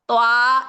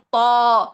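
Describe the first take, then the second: First: The long vowel is light and open, like 'aa'. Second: The long vowel is dark and rounded, like 'aw'. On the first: The speaker calls it wrong. "नहीं" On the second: The speaker calls it right. "अलिफ की आवाज़ भी मोटी ही रखनी है"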